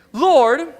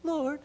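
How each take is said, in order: First: Loud, higher call for attention; exasperated outburst. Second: Soft, higher-pitched entreaty; pleading. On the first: Frustrated Martha talking to Jesus, loud exasperated appeal. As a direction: call out sharply, fed up. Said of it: "this is how crazy she's getting". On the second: Martha appealing to Jesus's heart, soft pleading. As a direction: plead softly for sympathy. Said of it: "plead for Jesus's heart". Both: Acted.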